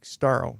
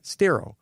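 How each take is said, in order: First: The vowel sounds like the one in 'star'. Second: The vowel sounds like the one in 'sterile'. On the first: The speaker calls it right. "That's the real, like Staro" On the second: The speaker calls it wrong. "not Stero. That sounds like E R O, like sterile"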